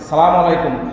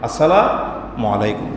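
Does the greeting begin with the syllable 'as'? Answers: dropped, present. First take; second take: dropped; present. First: The greeting starts directly with 'salam'. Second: The greeting starts with the syllable 'as'. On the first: The speaker calls it wrong. "সালাম আলাইকুম হয় না" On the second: The speaker calls it right. "উচ্চারণ শুদ্ধ হতে হবে"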